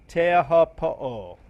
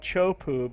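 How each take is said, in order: First: The name is said with all its syllables. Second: The name is clipped to two short syllables. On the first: The speaker calls it right. "I think is it's close enough" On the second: The speaker calls it wrong. "a lot of people call it Chopu, but that's not the correct pronunciation"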